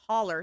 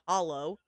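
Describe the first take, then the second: First: The word ends in an 'er' sound. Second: The word ends in an 'oh' sound. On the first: This is how locals say it. The speaker calls it right. "it's pronounced as a holler" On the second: This is how outsiders say it. The speaker calls it wrong. "not a hollow"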